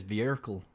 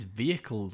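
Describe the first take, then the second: First: "vehicle" with an R slipped in; added R. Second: Said in the usual way. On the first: Retold or imitated. Imitating dad's odd word, "vehicle" with extra R. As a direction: say "vehicle" as if spelt "veerical". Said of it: "It's like he puts an R in it". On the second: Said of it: "He says vehicle weird".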